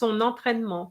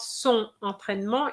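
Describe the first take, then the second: First: The n is linked to the next word. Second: The n is not linked to the next word. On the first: The speaker calls it right. "it's son entraînement. And this is a compulsory liaison" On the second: The speaker calls it wrong. "It's not son entraînement"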